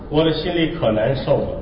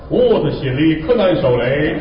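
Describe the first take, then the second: First: It is said in Standard Mandarin. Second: It is said with a Henan dialect accent. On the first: "我说普通话吧" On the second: "他是这么说的"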